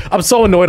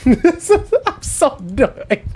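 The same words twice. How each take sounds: First: Said in the usual way. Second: Laughing, drawn out. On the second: Real, not acted.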